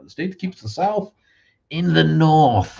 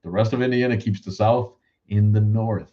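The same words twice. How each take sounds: First: Much higher put-on voice, stretched out slow at the end; mock grand slogan. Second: Said in the usual way. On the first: Shown as a demonstration. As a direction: announce it like a grand state motto. Repeats his Indiana line, performed.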